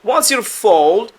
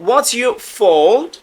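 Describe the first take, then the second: The two takes are said the same way.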